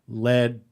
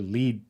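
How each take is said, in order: First: The word is said with a short 'e' vowel. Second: The word is said with a long 'ee' vowel. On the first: The speaker calls it right. "it says, you know" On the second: The speaker calls it wrong. "I misread the word lead and led"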